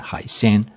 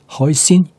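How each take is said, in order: First: It is pronounced the Mandarin Chinese way. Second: It is pronounced the anglicized English way. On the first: "the Chinese pronunciation" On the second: "hoisin is the anglicized version"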